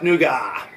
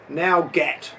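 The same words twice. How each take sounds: First: It is said with its usual pronunciation. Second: It is said the way it is spelled. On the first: "it doesn't sound anything like it's pronounced" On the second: "technically should be"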